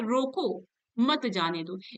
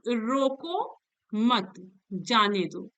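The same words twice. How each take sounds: First: The pause comes after the word 'roko'. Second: The pause comes after the word 'mat'.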